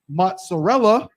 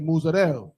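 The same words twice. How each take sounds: First: The word ends with its final vowel sounded. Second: The word ends without its final vowel. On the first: "Sometimes they don't say they don't say mozzarella" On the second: "They'll say mozzarella"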